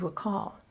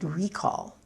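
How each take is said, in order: First: The stress is on the second syllable. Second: The stress is on the first syllable. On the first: It is used as a verb. "the verb recall, accent on the second syllable" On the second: It is used as a noun. "I used the word recall as a noun, stress on the first syllable"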